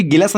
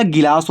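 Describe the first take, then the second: First: "गिलास" with a short second vowel, gi-lus; wrong pronunciation. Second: "गिलास" with a long aa, gi-laas; correct pronunciation. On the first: Teacher showing students the misreading to avoid, wrong pronunciation. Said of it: "नहीं होता". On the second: Teacher giving students the real word, correct pronunciation. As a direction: open out the laa in "गिलास". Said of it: "होता है भाई". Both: Shown as a demonstration.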